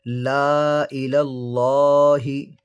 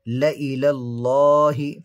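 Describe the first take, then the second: First: The vowel after the first l is drawn out long. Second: The vowel after the first l is said short. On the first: The speaker calls it wrong. "यहाँ पर हमने लाम को खींचकर पढ़ा है" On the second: The speaker calls it right. "यहाँ पर लाम को बग़ैर खींचकर पढ़ेंगे"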